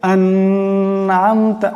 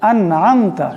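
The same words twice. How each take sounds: First: The n sound is nasalized and held. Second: The n sound is plain and not held. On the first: The speaker calls it wrong. "আন এখানে গুণনা করে" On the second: The speaker calls it right. "এই নুন সাকিনও গুণনা করা যাবে না, আন'আমতা এমন করে পড়তে হবে"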